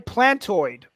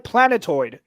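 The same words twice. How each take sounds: First: The second syllable is dropped, sounding like plant. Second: All three syllables are clearly pronounced, like planet. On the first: The speaker calls it wrong. "I said plant" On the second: The speaker calls it right. "redeem myself with planetoid"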